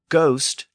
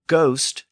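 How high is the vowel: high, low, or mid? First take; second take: high; high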